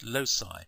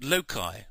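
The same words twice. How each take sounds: First: "loci" said LOH-sai, with an s sound; soft-c pronunciation. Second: "loci" said LOH-kai, with a k sound; hard-c pronunciation. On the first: Maths teacher giving the alternative, "loci" as LOH-sai. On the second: Maths teacher introducing the term, "loci" as LOH-kai. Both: Shown as a demonstration. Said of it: "or as they're sometimes pronounced".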